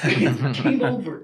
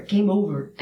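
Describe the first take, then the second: First: Lower, slow, laughing through the words; laughing repeat. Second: Said in the usual way. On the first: Real, not acted. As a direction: chuckle it out low and slow.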